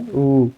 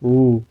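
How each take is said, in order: First: ऊ drawn out; long vowel. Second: Brief ऊ; short vowel. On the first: Teacher shows it takes more time, long ऊ. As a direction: hold ऊ for two beats. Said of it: "इसमें ज़्यादा समय लग रहा है". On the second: Teacher asks how long it took, short ऊ. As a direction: say ऊ in one short beat. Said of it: "इसमें कम समय लग रहा है". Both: Shown as a demonstration.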